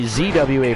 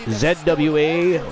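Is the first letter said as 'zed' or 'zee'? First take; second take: zee; zed. First: The first letter is said as 'zee'. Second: The first letter is said as 'zed'. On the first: This is the way the listeners say it. "for you guys" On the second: This is the speaker's own Canadian way of saying it. "I'm Canadian"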